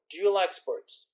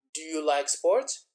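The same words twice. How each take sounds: First: Said in the usual way. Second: "Do you like sports" repeated slowly, rising on "sports"; echoed question. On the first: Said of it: "the same question that the examiner said". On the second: Shown as a demonstration. Candidate repeats the examiner's question, slow echo rising on "sports". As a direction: echo it back, lifting "sports" at the end. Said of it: "don't repeat the same question".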